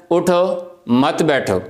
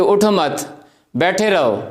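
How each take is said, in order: First: اٹھو as a full command, then a break, then مت بیٹھو as a unit; pause after اٹھو. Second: اٹھو مت run together, then a break before بیٹھے رہو; pause after مت. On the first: Teacher showing students how a pause changes meaning, break after اٹھو. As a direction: stop after اٹھو so it means get up, don't sit. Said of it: "آپ اس کو کہتے ہیں". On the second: Teacher showing students the other meaning, break after مت. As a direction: join اٹھو with مت and stop there, so it means don't get up. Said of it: "اگر آپ اس کو کہتے ہیں کہ". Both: Shown as a demonstration.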